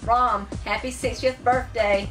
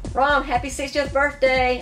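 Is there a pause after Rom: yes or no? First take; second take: yes; no. First: There is a clear pause after Rom. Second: It runs on quickly with no pause after Rom.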